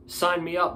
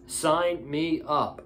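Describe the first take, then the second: First: High and eager; excited. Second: Slow, deliberate repeat; slow and drawn out. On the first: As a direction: blurt it out eagerly. Excited about dream stable. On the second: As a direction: stretch each word out slowly. Repeats, savoring the idea. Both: Real, not acted.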